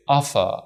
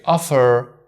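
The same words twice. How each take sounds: First: "offer" with no R at the end, British style. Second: "offer" with the R sounded at the end; American offer. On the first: Teacher demonstrating the British "offer". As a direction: drop the R in "offer" like a British speaker. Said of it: "in British they say". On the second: Teacher demonstrating the American "offer". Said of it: "in American they say". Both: Shown as a demonstration.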